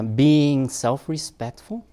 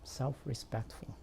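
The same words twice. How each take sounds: First: Slow, loud announcement with rising end; announcing. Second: Softly repeated, falling at the end; quiet repeat. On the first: Speaker announcing the next topic to parents, loud and drawn out. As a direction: draw out SELF-RESPECTFUL loudly, lifting the end. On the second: Speaker repeating the topic after a pause, quiet and falling. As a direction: say SELF-RESPECTFUL softly and let it drop. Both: Real, not acted.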